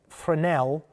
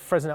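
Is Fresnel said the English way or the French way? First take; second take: French; English. First: The word is said in a French way. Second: The word is said in an English way. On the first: The speaker calls it right. "I should say Fresnel uh, is the correct pronunciation of that, especially since it seems he may well be French" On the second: The speaker calls it wrong. "he said Fresnel"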